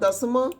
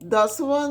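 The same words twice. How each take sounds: First: The middle consonant is an m sound. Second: The middle consonant is a v sound. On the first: This is the Malwai dialect form. "Malwai ਵਾਲੇ ਮੰਮਾ ਬੋਲਦੇ ਨੇ" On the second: This is the standard form. "ਦੋ ਸਵਰਾਂ ਦੇ ਵਿਚਕਾਰ ਵਾਵਾ ਨੂੰ ਮਲਵਈ ਵਾਲੇ ਮੰਮਾ ਬੋਲਦੇ ਨੇ"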